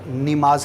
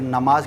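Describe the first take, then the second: First: The first vowel is an 'i' sound. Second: The first vowel is an 'a' sound. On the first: The speaker calls it wrong. "वहाँ पर ज़ेर पढ़ते हैं" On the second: The speaker calls it right. "जहाँ पर ज़बर होता है"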